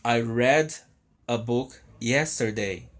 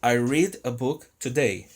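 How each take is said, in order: First: I read a book yesterday, read like bed; past read. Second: I read a book today, read like need; present read. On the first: Teacher models the past read as red. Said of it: "eu li um livro ontem". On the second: Teacher models the present read as reed. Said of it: "eu leio um livro hoje". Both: Shown as a demonstration.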